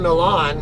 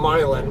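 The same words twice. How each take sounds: First: Milan is said the speaker's own, non-local way. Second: Milan is said the local American way. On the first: The speaker calls it right. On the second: The speaker calls it wrong.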